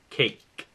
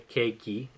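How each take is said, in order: First: The word ends on a consonant sound. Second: The word ends with an extra vowel sound. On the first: The speaker calls it right. "é cake" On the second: The speaker calls it wrong. "mas não é cakey"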